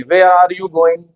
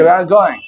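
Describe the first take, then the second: First: Very slow, deliberate British English accent. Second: "Where are you going?" said with a quick American English lilt, falling on "you"; American accent. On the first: Teacher showing students how Indians say it, in a slow British English accent. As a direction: stretch out "Where are you going?" in a careful British English accent. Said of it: "हम ऐसे बोलेंगे".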